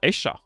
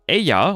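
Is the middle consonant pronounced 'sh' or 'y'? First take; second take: sh; y. First: The middle consonant sounds like sh. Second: The middle consonant sounds like y.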